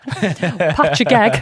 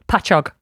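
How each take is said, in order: First: The word ends with an eg sound. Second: The word ends with an og sound. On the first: The speaker calls it wrong. "some people pronounce this" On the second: The speaker calls it right. "But it's Pachog"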